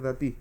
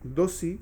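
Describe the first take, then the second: First: It is said with a standard Israeli accent. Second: It is said with an Ashkenazi accent.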